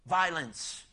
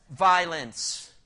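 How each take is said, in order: First: Said in the usual way. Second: Violence said loud and heavy, a falling punch; emphatic. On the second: Shown as a demonstration. Preacher answering his own question, Violence said loud and falling. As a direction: land Violence hard and loud. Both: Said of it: "you tell me, what was it filled with?".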